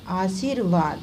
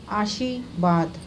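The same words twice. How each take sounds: First: Said in the usual way. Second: आशीर्वाद slowly without the r; dropped r. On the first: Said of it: "ये है आशीर्वाद". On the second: Shown as a demonstration. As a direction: say आशीर्वाद as aashi-vaad, drawn out. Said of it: "इनका अशुद्ध रूप क्या है".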